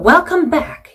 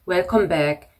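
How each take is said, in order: First: It is said with lively, expressive feeling. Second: It is said flatly and gloomily, without feeling. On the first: The speaker calls it right. "감정 실어서" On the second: The speaker calls it wrong. "너무 감정 없이 어떻게 보면 우울하게"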